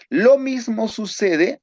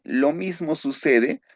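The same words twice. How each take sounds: First: Raised restart. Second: Said in the usual way. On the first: Real, not acted. Teacher restarts the point louder.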